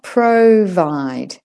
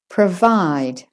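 First: The first vowel is a full vowel. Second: The first vowel is reduced to schwa. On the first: The speaker calls it wrong. "Now it's not provide" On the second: The speaker calls it right. "It's pr. There's your schwa"

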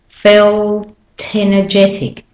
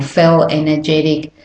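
First: The T sound is kept and joins the next vowel. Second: The T sound is dropped between the words. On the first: The speaker calls it right. "You still hear the sounds" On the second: The speaker calls it wrong. "It's not"

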